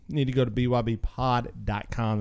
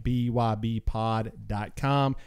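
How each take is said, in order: First: Said in the usual way. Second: Slow it down so they catch it; slow and spelled out. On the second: Shown as a demonstration. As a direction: spell each letter slowly.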